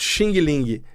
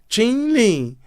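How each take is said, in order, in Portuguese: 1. O final tem som de G duro. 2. O final não tem som de G duro. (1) "todo mundo fala errado" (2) "não tem o som do G"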